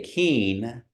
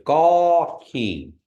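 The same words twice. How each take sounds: First: Keen said with a full N at the end; wrong full N. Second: Gaw keen slow, keen with a nasal vowel and no N. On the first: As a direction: sound out keen with the N closed. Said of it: "you don't say keen". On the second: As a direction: drag gaw keen out, no closing N. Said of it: "You don't say the N". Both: Shown as a demonstration.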